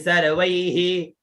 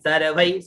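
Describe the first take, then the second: First: The final h-sound is full, with an added vowel. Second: The final h-sound is light, barely heard. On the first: The meter of the verse breaks. The speaker calls it wrong. "ऐसे अगर बोलेंगे कि सर्वै ही, तो इतने में छंद टूट गया।" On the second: The meter of the verse stays intact. The speaker calls it right. "अब ऐसे बोल के निकल जाना है।"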